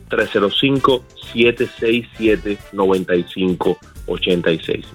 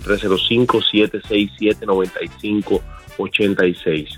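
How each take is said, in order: First: The number is said at a slower pace. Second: The number is said at a quicker pace.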